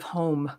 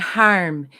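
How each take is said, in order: First: It is said without an Australian accent. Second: It is said with an Australian accent. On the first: "instead of home" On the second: "saying harm"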